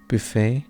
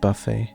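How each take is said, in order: First: It is pronounced the French way. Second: It is pronounced the English way. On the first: The speaker calls it right. "it's a French word, and it's called buffet" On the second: The speaker calls it wrong. "and not buffet"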